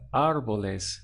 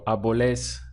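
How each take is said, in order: First: The stress is on the first syllable. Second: The stress is on the last syllable. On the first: The speaker calls it right. "The push comes at the front of the word" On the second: The speaker calls it wrong. "where you're stressing the end"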